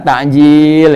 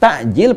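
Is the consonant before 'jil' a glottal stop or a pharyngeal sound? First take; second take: pharyngeal; glottal stop. First: The middle consonant is a throaty pharyngeal sound. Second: The middle consonant is a glottal stop. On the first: It is food for breaking the fast. "kalau pakai ain baru buat buka" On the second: It is food for the pre-dawn meal. "pakai hamzah itu buat sahur"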